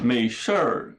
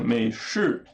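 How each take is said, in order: First: The final syllable ends with an r-colored sound. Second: The final syllable ends plainly without an r-sound. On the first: This is how people near Beijing say it. "no Nordeste, ali perto de Pequim, o pessoal fala" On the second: This is how people in the south say it. "pro Sul, o pessoal fala"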